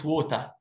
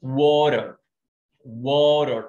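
First: Water in a British accent, clear t. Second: Water with a flapped t, worer; American water. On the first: Teacher contrasting the British water. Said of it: "بريتش". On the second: Teacher gives the American water. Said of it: "الكلمة دي لها نطقين". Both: Shown as a demonstration.

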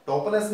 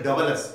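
First: "Double S" said as "doppel es"; German letter name. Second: Said in the usual way. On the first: Shown as a demonstration. Teacher explaining the German letter, German pronunciation. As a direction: say "Double S" with p, not b. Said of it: "means just equivalent to the double S". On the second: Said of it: "just equivalent to the double S".

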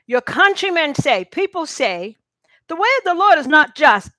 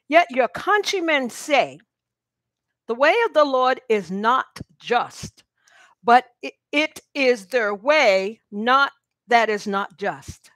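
First: Emphatic reread. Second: Slow reading. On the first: Preacher rereads the verse to the congregation, louder and higher. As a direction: read it again louder and higher, pressing on Lord. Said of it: "Let me read that again". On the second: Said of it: "I'm gonna read it slow". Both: Shown as a demonstration.

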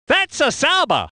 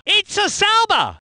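First: Said in the usual way. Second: Higher, punched car name; excited identification. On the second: Acted. Commentator spotting a Sauber, excited high call.

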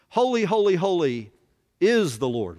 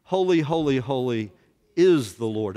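First: Louder and higher on the first holy; proclaiming. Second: Louder, said together with the room; proclaiming with the class. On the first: Preacher leading the class in the angels' song, loud. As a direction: ring out Holy, holy like a hymn. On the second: Class repeating the angels' song after the preacher, loud. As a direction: say it with them, strong. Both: Shown as a demonstration. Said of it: "Would you say that with me?".

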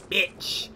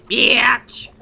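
First: Said in the usual way. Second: Hissed whisper of Bitch!. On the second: Shown as a demonstration. Player playing with the word, whispering it. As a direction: breathe the word Bitch! out unvoiced.

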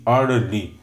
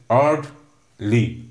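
First: Said in the usual way. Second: "Orderly" slowly, in two separate beats; split into syllables. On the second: Shown as a demonstration. Teacher counting two syllables for students, "Orderly" slowly broken up. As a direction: pause between the syllables of "Orderly". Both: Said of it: "So there are two".

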